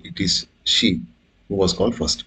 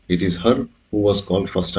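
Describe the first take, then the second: First: Said in the usual way. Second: Wrong form. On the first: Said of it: "అని కూడా అనొచ్చు". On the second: Shown as a demonstration. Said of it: "అని అంటే తప్పు".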